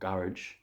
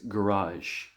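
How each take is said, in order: First: It is said the British and Irish way. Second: It is said the American way. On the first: "in the U K and Ireland" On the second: "in the United States"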